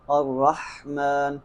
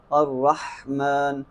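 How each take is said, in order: First: الرحمن said slowly with the ħ dropped, like arraman; wrong take. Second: الرحمن drawn out with a clear breathy ħ; slow recitation. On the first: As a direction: drop the throat h in الرحمن to show the error. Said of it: "اگر ہا کی بجائے آپ نے ہا پڑھ دیا". (الرحمن غلط، حا کے بغیر) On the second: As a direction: recite الرحمن slowly, voicing the throat h. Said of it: "قرآن پاک میں سے کیسے استعمال کریں گے". (الرحمن آہستہ، حلقی حا کے ساتھ) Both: Shown as a demonstration.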